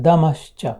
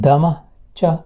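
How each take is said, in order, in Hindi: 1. दोनों शब्द जुड़कर एक शब्द बन जाते हैं। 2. दोनों शब्द अलग-अलग शब्दों की तरह बोले जाते हैं। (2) "दमः च का"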